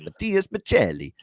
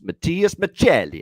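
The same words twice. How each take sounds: First: The name is said in an Italian accent. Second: The name is said in a plain accent.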